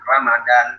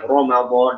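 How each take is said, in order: First: The R is light and thin. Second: The R is heavy and thick. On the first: The speaker calls it wrong. "jangan Ramadan" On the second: The speaker calls it right. "ya bacanya Ramadan"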